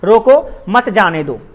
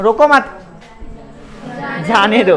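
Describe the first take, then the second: First: There is a pause right after 'roko'. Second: There is a pause right after 'mat'. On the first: Stop him; do not let him go. "वहां पे comma है तो रुकना पड़ेगा थोड़ा सा" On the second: Do not stop him; let him go. "बोले उसको रोको मत, जा रहा जाने दो उसको"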